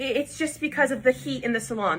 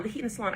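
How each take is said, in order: First: Said in the usual way. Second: Softer repeat. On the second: Retold or imitated. Stylist repeating her excuse, quieter. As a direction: echo the excuse again, much softer.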